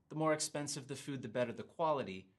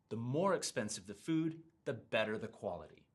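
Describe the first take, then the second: First: More and better are said flat, without stress. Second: More and better are stressed, then the pitch falls.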